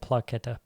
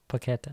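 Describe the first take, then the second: First: An L sound follows the first P. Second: No L sound follows the first P. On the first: The speaker calls it wrong. "I don't know why I said Plaqueta" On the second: The speaker calls it right. "There's no L in this"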